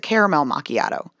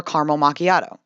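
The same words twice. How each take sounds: First: "caramel" in three syllables, "CARE-uh-mel macchiato"; southern caramel. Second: "caramel" in two syllables, "CAR-mel macchiato"; northern caramel. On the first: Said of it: "in the southeastern United States". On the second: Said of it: "northern and western parts". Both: Shown as a demonstration.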